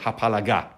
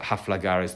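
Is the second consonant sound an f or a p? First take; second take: p; f. First: The second consonant is a p sound. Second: The second consonant is an f sound. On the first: The speaker calls it right. "I pronounce the next word, hapalaga" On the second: The speaker calls it wrong. "haflaga is not the correct way of saying it"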